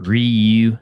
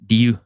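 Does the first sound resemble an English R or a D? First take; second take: English R; D. First: The first sound is an English R. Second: The first sound is close to a D. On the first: The speaker calls it wrong. "everyone calls it Ryu" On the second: The speaker calls it right. "It's Ryu"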